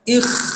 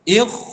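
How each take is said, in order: First: The kh sound is very light and thin. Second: The kh sound is very heavy and thick. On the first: "nipis sangat" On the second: "dia tebal pun salah"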